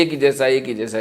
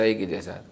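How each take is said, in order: First: Same flat pitch on each एक ही जैसा; monotone demo. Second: एक ही जैसा much softer and lower, sinking away; drowsy fading monotone. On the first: Preacher shows listeners a monotonous drone. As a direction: drone एक ही जैसा on one note. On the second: Preacher shows how monotony puts listeners to sleep. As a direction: let एक ही जैसा die out as if nodding off. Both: Shown as a demonstration. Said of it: "monotonous नहीं होना चाहिए".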